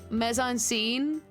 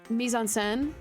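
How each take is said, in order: First: The phrase is said with an anglicized pronunciation. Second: The phrase is said with a French pronunciation. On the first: The speaker calls it wrong. "says it like" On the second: The speaker calls it right. "it's supposed to be like"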